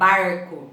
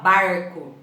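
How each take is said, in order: First: The R is in the countryside interior style. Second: The same.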